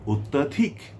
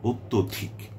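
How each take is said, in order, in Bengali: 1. দ্বিতীয় দলে একটি খোলা 'a' স্বরধ্বনি আছে। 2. দ্বিতীয় দলে একটি 'o' স্বরধ্বনি আছে। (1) "অত্যাধিক বলে বাংলা অভিধানে কোনো শব্দ নেই" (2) "সঠিক শব্দটি হচ্ছে অত্যধিক"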